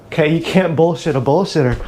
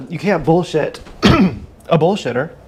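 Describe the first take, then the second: First: Said in the usual way. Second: Drawn out, each word landed; slow emphatic repeat. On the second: Shown as a demonstration. To the listener, repeating the saying slowly and weightily. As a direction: say it again slowly to drive it home.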